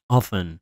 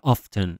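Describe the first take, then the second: First: "often" with the t left silent; silent-t pronunciation. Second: "often" with the t sounded; pronounced t. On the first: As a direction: say "often" as OFF-en, no t sound. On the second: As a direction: say "often" as OFF-ten, with a t. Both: Shown as a demonstration. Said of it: "این تلفظ often هم فکر نکنید غلطه ها".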